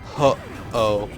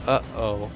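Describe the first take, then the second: First: The name starts with an H sound. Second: The name starts without any H sound. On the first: "I went Ho-Oh" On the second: "just got rid of the H altogether"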